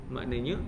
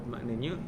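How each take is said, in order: Both takes have the same delivery.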